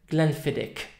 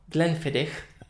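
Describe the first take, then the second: The two takes are said the same way.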